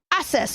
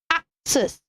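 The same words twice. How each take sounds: First: The double C has no K sound. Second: The double C has a K sound. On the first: The speaker calls it wrong. "So you don't say access" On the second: The speaker calls it right. "you turn the C C to K. ... You say access"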